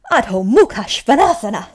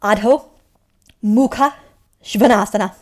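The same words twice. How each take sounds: First: "Adho Mukha Svanasana" in one connected run, loud; all together. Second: One word at a time, loud and clear, "Adho... Mukha... Svanasana"; broken into parts. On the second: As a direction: teach "Adho", "Mukha", "Svanasana" separately with a pause after each. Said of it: "Okay, okay, I'll tell you". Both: Shown as a demonstration.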